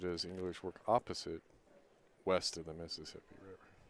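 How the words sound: There is a pause after opposite.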